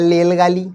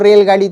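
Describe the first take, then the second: First: The word is said the way a small child would. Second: The word is said in its standard adult form. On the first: "छोटे बच्चे को कहिएगा बोलो रेलगाड़ी तो कहेगा लेलगाली" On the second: "बोलो रेलगाड़ी"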